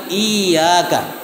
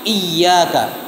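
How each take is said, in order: No difference in how they are said.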